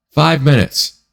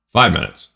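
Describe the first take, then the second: First: "Five" jumps high in disbelief, "minutes" falls away; incredulous stress on five. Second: Said in the usual way. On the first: Shown as a demonstration. Telling viewers how short the trade was, stressing "Five" in disbelief. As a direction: hit "Five" up high like you can't believe it. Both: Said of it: "to make how much?".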